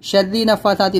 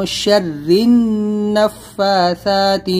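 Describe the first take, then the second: First: نَفَّاثَاتِ said with a single ن, no ghunna; wrong way. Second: Slow, the doubled ن in النَّفَّاثَاتِ held nasally; correct, with ghunna. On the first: Teacher shows the mistake to avoid. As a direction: drop the ل and the doubled ن, say نَفَّاثَاتِ. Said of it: "نہیں ہوگا". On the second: Teacher demonstrates the correct reading slowly. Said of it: "تشدید ہے نون کے اوپر ... غنہ". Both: Shown as a demonstration.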